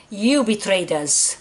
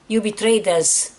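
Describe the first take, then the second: No difference in how they are said.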